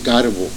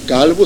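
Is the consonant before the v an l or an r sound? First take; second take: r; l. First: The consonant before the b is an r sound. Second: The consonant before the v is an l sound. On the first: "on prononce le L comme un R. Alors Calvo, c'est Carbo" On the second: "on prononce le L comme un R"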